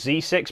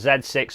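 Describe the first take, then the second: First: The letter is said as 'zee'. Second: The letter is said as 'zed'. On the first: This is the maker's American form. "not the Z six, because that's what Nikon say" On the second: This is the British English form. "why I called them the Z six"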